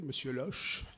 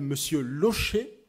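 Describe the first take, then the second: First: The surname is pronounced carelessly and mangled. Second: The surname is pronounced carefully, with its accent. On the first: The caller does not know the person. The speaker calls it wrong. "en massacrant sa prononciation" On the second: The caller knows the person. The speaker calls it right. "avec le, la particule, ou l'accent, pardon"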